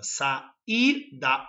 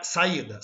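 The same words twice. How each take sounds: First: "Saída" split as sa-í-da, stretched out; syllable by syllable. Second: Said in the usual way. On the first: Shown as a demonstration. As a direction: say "Saída" in three separate syllables, stressing the í. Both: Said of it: "sílabas separadas".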